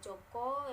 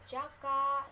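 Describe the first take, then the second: First: Both vowels sound like an O. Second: Both vowels sound like a plain A.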